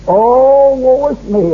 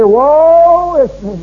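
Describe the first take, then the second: First: A quick mock lament; mock self-pity. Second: Higher, louder, very slow mock wail; mock moaning complainer, drawn out; hammed-up lament. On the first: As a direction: play the moaning sufferer lightly. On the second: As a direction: drag out the woe like a whining martyr. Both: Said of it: "riding old Job's horse".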